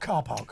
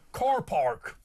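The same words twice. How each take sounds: First: The R sounds are dropped. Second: The R sounds are clearly pronounced. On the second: "used the hard R, so he'd have said"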